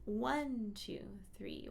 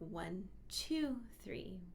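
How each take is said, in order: First: All three counts are given even weight. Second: The count two is stressed more than others. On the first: "instead of thinking one, two, three" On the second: "slight emphasis on the second beat"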